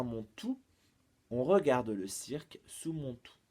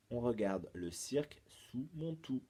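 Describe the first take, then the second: First: Riddle recital. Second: Said in the usual way. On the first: Shown as a demonstration. Presents final riddle clue.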